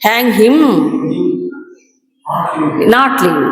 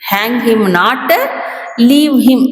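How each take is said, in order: First: The pause comes after the word him. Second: The pause comes after the word not. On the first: Hang him; do not let him go. The speaker calls it wrong. "ఈ not ఇటు పెట్టాడు అనుకోండి" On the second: Do not hang him; let him go. The speaker calls it right. "Hang him not అనే దగ్గర comma పెట్టాలి"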